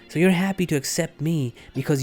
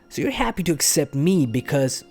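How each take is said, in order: First: It is said in an imitated put-on voice. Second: It is said in the speaker's ordinary voice.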